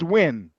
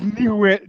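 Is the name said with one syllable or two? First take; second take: one; two. First: The name is said with one syllable. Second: The name is said with two syllables. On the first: The speaker calls it right. "Just win" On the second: The speaker calls it wrong. "Not not new win"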